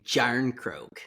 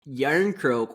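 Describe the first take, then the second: First: The name begins with a J sound. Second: The name begins with a Y sound.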